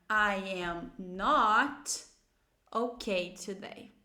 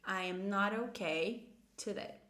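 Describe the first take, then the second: First: Very slow, with "not" stretched; slow model negative. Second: Slow, more connected English sentence; slow model negative. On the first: Teacher models the negative answer, very slowly. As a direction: draw out "not", then finish lower. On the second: Teacher repeats the negative answer, slow and connected. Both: Shown as a demonstration. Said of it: "você vai dizer usando uma negativa".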